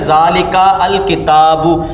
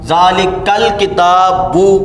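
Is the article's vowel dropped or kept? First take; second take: kept; dropped. First: The article's vowel is kept as separate sounds. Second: The article's vowel is dropped and words linked. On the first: The speaker calls it wrong. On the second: The speaker calls it right.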